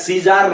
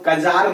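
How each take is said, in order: First: The word begins with an S sound. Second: The word begins with a K sound. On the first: "सीजार नहीं बोलते हैं" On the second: "इसको कजार नहीं बोलते हैं"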